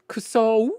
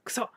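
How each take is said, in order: First: The final vowel glides from o toward u. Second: The final vowel is a short, pure o. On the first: The speaker calls it wrong. "it's not kuso. Like you don't go o u in Japanese" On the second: The speaker calls it right. "It's kuso, right? Um, with that like pointed um pointed um enunciation"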